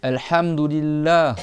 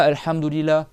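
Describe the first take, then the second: First: Slow "Alhamdulillah" with throaty ha; correct Arabic. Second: "Alhamdulillah" with a plain French h-less a; mock wrong Arabic; wrong pronunciation. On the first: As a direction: say "Alhamdulillah" slowly with a mid-throat ha. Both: Shown as a demonstration. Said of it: "C'est pas".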